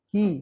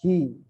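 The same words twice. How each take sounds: First: The vowel is a clear i with spread lips. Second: The vowel is muffled with lips not spread. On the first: The speaker calls it right. "meringis seperti senyum" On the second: The speaker calls it wrong.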